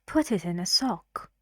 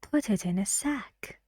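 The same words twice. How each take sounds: First: "sock" with an open back o vowel; minimal-pair demo. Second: "sack" with an open front a vowel; minimal-pair demo. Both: Shown as a demonstration. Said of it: "match it to one of the pairs".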